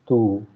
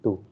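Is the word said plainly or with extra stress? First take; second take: stressed; plain. First: The vowel is said with extra stress. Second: The vowel is said plainly, without extra stress. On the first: It means you, the subject. "you have to give a little bit of stress on that particular letter" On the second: It means your, a possessive. "without accent, it will be simply tu"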